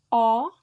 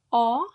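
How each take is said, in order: First: The vowel is an open O. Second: The vowel is an open O.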